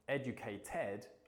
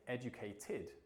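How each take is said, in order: First: The ending is pronounced like 'ed'. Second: The ending is pronounced like 'id'. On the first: The speaker calls it wrong. "instead of saying educated" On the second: The speaker calls it right. "I should be saying educated"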